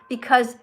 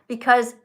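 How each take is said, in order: Both takes have the same delivery.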